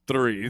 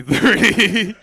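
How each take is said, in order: First: Said in the usual way. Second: Laughing loud punchline. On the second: Real, not acted. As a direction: burst out laughing on Three.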